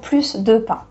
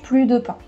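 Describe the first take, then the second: First: The S at the end of plus is pronounced. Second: The S at the end of plus is silent. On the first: There is more bread being added. "I'm adding that S" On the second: Bread is no longer eaten. "so you take that S off"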